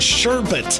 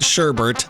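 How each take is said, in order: First: The second syllable has no r sound. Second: The second syllable has an added r sound. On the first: The speaker calls it right. "Stop. It's sherbet" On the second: The speaker calls it wrong. "it's not sherbert"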